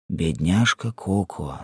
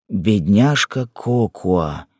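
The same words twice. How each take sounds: First: Softer, slow, pitying murmur; a soft, sorry sigh of her name; tender pity. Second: Slower, fuller, drawn-out pity; tender but stronger the second time; repeated with pity. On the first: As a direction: say it gently to the weeping wife. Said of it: "сказал Киф". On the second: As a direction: lean into her name as you repeat it. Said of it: "повторил он снова". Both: A narrator's reading.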